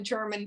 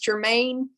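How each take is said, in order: First: The name sounds like the word 'German'. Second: The name ends with a long 'main' sound. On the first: This is how the family says its own name. "they call themselves the German family" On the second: This is how a historian says the name. "he he says Germain"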